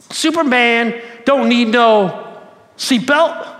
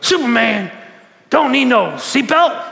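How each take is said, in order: First: Slow, loud boastful drawl; slow cocky Muhammad Ali impression. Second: Slow, loud cocky boast; Muhammad Ali impression, louder and slower. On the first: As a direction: boast it like the champ, slow and proud. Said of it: "he says it in his normal Muhammad Ali way". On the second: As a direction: strut through it like the champ. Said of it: "he kinda talk like that".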